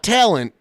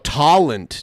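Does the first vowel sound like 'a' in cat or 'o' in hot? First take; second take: cat vowel; hot vowel. First: The first vowel sounds like the 'a' in cat. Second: The first vowel sounds like the 'o' in hot. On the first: It is the normal way to say it. The speaker calls it right. "not talent" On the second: It mimics how someone else said it. The speaker calls it wrong. "he can't get his A sounds and his O sounds right"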